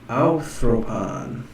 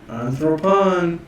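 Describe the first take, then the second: First: The first syllable starts with an 'ow' diphthong. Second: The first syllable starts with a plain 'an' sound. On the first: The speaker calls it wrong. "Is that diphthong right here?" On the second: The speaker calls it right. "I don't see a diphthong"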